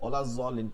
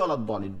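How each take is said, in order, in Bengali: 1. মূল ব্যঞ্জনটি z-এর মতো শোনায়। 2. মূল ব্যঞ্জনটি d-এর মতো শোনায়। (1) "দতকে জত পড়ে, ওলা জলিন পড়তেছে" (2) "সকলেই ওলা দলিন বলে"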